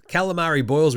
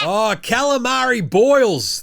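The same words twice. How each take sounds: First: Said in the usual way. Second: Higher, louder and slow, like announcing a fighter; drawn-out hype call. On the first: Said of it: "we call him". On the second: Real, not acted. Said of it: "Calamari Boyles, we call him".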